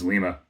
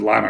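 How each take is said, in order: First: It is said the way the Peruvian city says it. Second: It is said the way the Ohio town says it. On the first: The speaker calls it right. "It's Lima" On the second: The speaker calls it wrong. "I think I said Lima earlier like a dummy"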